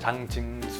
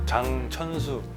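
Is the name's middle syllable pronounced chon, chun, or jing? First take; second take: jing; chon. First: The middle syllable sounds like jing. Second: The middle syllable sounds like chon. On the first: "발음을 누구도 못하더라고요" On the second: "발음을 누구도 못하더라고요"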